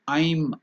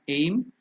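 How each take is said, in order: First: The vowel sounds like 'eye' gliding to 'ee'. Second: The vowel sounds like 'ay' in 'day'. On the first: The speaker calls it right. "It is I'm. I plus yum" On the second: The speaker calls it wrong. "It is not aim"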